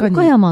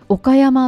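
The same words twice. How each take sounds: First: The pitch falls within the word. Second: The pitch rises on the middle of the word. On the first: This is how people from Tokyo say it. "東京人は言うけど落ちるんだけど" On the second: This is how local people say it. "岡山って真ん中の音が上がる感じ"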